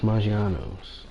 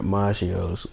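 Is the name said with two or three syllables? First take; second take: three; two. First: The name is said with three syllables. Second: The name is said with two syllables. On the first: The speaker calls it right. "It's Maggiano's" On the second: The speaker calls it wrong. "The person did not even pronounce it right"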